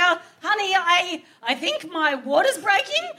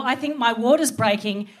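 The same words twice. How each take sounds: First: Soft slow wake-up. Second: Said in the usual way. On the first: Retold or imitated. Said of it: "And so I'm like". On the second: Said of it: "I'm like, "Oh no".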